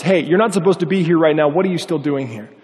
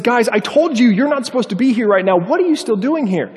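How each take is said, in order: First: Mild retold call-out; firm, mildly raised challenge. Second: High-pitched exasperated retelling; mock frustrated scolding, pitched up; more frustrated. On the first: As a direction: call out a warning, only lightly raised. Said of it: "one of the guys calls out". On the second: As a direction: imitate a man losing patience, pitch raised. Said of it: "understandably a little bit more frustrated".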